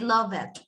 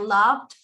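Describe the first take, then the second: First: The ending is said as an extra syllable. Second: The ending adds no extra syllable. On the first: The speaker calls it wrong. "that is a mistake that we need to change" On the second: The speaker calls it right. "instead of saying loved"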